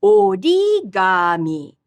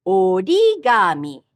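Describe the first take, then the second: First: "Origami" slow, low start, rising mid, low end; low-high-low pitch. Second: "Origami" again, rise in the middle, low end; low-high-low pitch. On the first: Teacher modelling third pattern, slow careful pitch. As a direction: lift the middle of "Origami", low at both ends. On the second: Teacher repeating for students, low-high-low pitch. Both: Shown as a demonstration. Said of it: "low at the start, rising in the middle".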